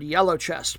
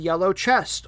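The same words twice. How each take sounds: First: It is said run together as one word. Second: It is said as two separate words.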